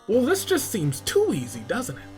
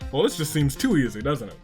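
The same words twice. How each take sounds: First: It is said in a put-on character voice. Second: It is said in his normal voice.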